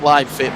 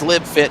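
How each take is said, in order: First: Live has a long vowel, rhyming with hive. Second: Live has a short vowel, rhyming with give. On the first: The speaker calls it wrong. "not Live Fit. My apologies" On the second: The speaker calls it right. "that's Live Fit"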